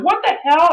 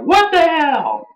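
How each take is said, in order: First: Much higher, mock stunned; a fan reacting to an ambush; shocked what the hell. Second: High, slowed-down mock outrage; a fan's indignant cry, pitched way up; outraged what the hell. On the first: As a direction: let the disbelief jump up high. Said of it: "I was like". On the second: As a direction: stretch it out in disbelief. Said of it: "saying, like".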